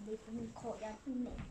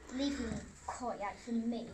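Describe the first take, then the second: First: It is said softer and quicker. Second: It is said louder and slower.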